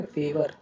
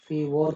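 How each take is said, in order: First: "फेवर" ending in a short ver; correct weak ending. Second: "फेवर" misread as "fay-vor"; rejected OR ending. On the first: Teacher modelling the word for students, "फेवर" with weak ending. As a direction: say "फेवर" with uh in the last syllable. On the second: Teacher questioning a spelling-based reading, "फेवर" as fay-vor. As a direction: say "फेवर" with a rounded o, like "फेवॉर". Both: Shown as a demonstration. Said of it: "फेवर क्यों नहीं बोलते".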